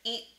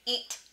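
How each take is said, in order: First: The T is held without any audible release. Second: The T is released with a puff of air. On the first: "I said eat" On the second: "I didn't explode it. I didn't say eat"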